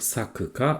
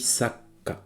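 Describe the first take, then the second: First: The middle syllable is pronounced in full. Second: The middle syllable is compressed into the next sound. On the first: The speaker calls it wrong. "plus haut que dire sakka" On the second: The speaker calls it right. "on dit saka"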